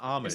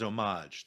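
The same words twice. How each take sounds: First: The word is pronounced in a plain English way. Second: The word is pronounced in a French-sounding way. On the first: The speaker treats the word as English. The speaker calls it right. "it's just homage" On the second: The speaker treats the word as French. The speaker calls it wrong. "people saying the word homage as homage ... they're like thinking it's a French word"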